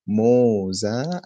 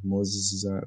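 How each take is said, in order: First: Moza with a long, stretched first o; long-vowel pronunciation. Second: Muzza with short u and a held zz; double Z. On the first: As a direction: draw out Moza as "MOHH-za". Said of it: "it's a different pronunciation". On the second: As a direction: hold the double z in muzza, "muz-zza". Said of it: "There's a double Z". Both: Shown as a demonstration.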